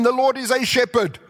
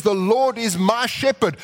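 First: "a" said lightly, the general shepherd; a small lean on "a" against "my"; stress on a. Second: "my" leaned on a little, as in my own shepherd; a slight push on "my"; stress on my. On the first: Preacher contrasting a with my, lightly leaning on "a". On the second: Preacher contrasting my with a, leaning lightly on "my". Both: Shown as a demonstration. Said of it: "That's different from saying".

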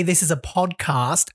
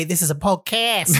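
First: PODCAST with a long open 'ah' in cast; local podcast pronunciation. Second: PODCAST with a flat 'a' as in cat; Melbourne podcast pronunciation. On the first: Host shows how locals say it, "podcast" with broad ah. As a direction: say "podcast" slowly as pod-kahst. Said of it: "So we would say". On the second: Host mimics how others say it, "podcast" with short a. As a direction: say "podcast" as pod-kass. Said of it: "and they would say". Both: Shown as a demonstration.

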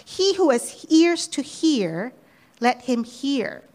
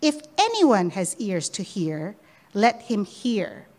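First: Slow, weighty, each word given space; slow emphatic quote. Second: Slow on let him hear; emphatic quote. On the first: Preacher quoting Jesus to listeners, slow and weighty. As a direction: read it slowly as a solemn challenge. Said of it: "he keeps repeating it". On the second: Preacher repeating Jesus' challenge, slowing at the end. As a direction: lean on the challenge. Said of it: "he repeats that challenge". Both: Shown as a demonstration.

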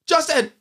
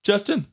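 First: High, insistent call; urgent raised-pitch shout. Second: Calling out. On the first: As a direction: cry the name after him, pitch jumping. Calling again, more insistently. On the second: Calling after departing friend. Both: Acted.

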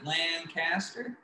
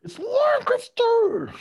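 First: Lancaster said slowly as LAND-CAST-er; slow Lancaster with a full "cast" in it; alternative pronunciation. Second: Lancaster shrieked very high as LANK-iss-ter; mock-outraged, drawn-out high screech on Lancaster, LANK-iss-ter; screeched correction. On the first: Shown as a demonstration. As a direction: split Lancaster into two full parts, LAN and CASTER, softly. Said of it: "as some like to pronounce it". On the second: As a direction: squawk out Lancaster slowly with the middle squashed to "kiss". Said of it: "correct them by just being like".

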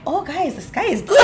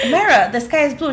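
First: Higher, bright-eyed "oh guys" with a laugh; chirpy agreement. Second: Said in the usual way. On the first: Retold or imitated. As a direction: suddenly agree as if it's obvious. Myra agreeing only with Denise.

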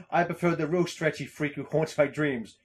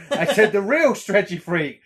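First: Said in the usual way. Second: Loud, higher-pitched emphasis on "real stretchy freak"; insistent correction. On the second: Acted. Host reading his meme to co-host, insisting loudly on "real stretchy freak".

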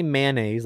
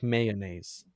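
First: "mayonnaise" said in two syllables, MAN-naise; "mayonnaise" squeezed into MAN-naise, no middle syllable. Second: "mayonnaise" slowly in three syllables, MAY-uh-naise; "mayonnaise" drawn out slowly with a middle "uh" syllable. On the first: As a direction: clip "mayonnaise" to two beats. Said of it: "like, two syllables". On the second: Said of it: "a third one sneaks in for some people". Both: Shown as a demonstration.

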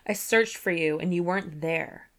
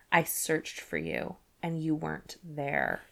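First: Said in the usual way. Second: Brooding Tamlin. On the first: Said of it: "he said". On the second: A narrator's reading. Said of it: "he breathed".

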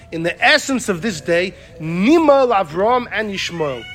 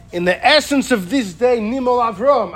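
First: "Nimal Avram and Yishmael" joined in one unbroken phrase; verse read as one sentence. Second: Higher-pitched reading that closes on "Avram"; verse re-phrased to stop. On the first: Teacher quoting the verse as written, "Avram and Yishmael" joined. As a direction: run "Avram" on into "and Yishmael", slowing there. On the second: Teacher showing a new parsing, full stop after "Avram". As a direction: end the sentence firmly at "Avram", voice falling. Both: Shown as a demonstration. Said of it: "you read it like this".

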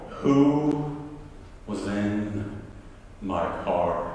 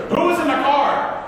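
First: Low, very slow, word by word; menacing question dropping low and soft; contained anger. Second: High, raised-voice demand; angry retold yell, pitched way up. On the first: Retold or imitated. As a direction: interrogate slowly with held-in fury. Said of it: "I'm mad now". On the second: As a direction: burst out at the culprits. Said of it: "Who is this pastor yelling".

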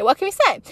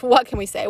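First: Higher and louder, a playful shrug. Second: Said in the usual way. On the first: Real, not acted. Vlogger joking to viewers about quitting, higher playful shrug. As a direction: toss it off with a comic shrug. Repeats the shrug with more push.

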